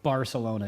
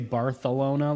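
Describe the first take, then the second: First: The c is said as an s sound. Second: The c is said as a th sound. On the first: "we don't say that with our American accent, so Barcelona it is" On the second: "you're supposed to say Barcelona, like with the T H"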